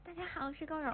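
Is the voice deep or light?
light. It is said in his own lighter voice.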